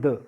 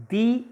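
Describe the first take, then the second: First: "the" with a short schwa vowel; "the" as thuh. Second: "the" with a long ee vowel; "the" as thee. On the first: Teacher contrasts two forms for students, "the" said "thuh". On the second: Teacher contrasts two forms for students, "the" said "thee". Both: Shown as a demonstration.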